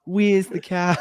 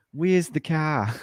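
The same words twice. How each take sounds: First: Higher-pitched New Zealand accent take; mock Kiwi accent. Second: Slow mock Australian accent. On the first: Contrasting Kiwis with Australians, higher mock New Zealand accent. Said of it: "we're more like". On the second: Showing friends how Australians say it, slow Australian accent. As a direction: draw it out slowly like an Australian. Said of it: "the Australians are like". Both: Shown as a demonstration.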